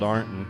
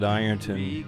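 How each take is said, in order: First: The name is said the local way. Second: The name is said the outsider way. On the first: This is how people who live there say it. The speaker calls it right. "We we call it Ironton" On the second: This is how people from elsewhere say it. The speaker calls it wrong. "we don't pronounce it Ironton around here"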